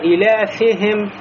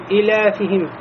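First: The vowel after f drifts toward a. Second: The vowel after f is cut very short. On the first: "кясра, переходящий в фатху" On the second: "кясра очень короткая"

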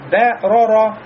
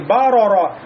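First: The first syllable is light, with a bright vowel. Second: The first syllable is heavy, with a dark vowel. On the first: The speaker calls it right. "Бэ у нас будет мураккака" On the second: The speaker calls it wrong. "Получается не бароро"

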